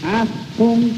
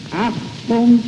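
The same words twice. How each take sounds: The two takes are said the same way.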